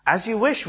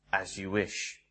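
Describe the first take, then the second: First: Said in the usual way. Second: Much lower and softer, a hushed devoted answer; Westley answering Buttercup, low, soft and devoted; devoted reply. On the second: Retold or imitated. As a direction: murmur it like a quiet vow of love.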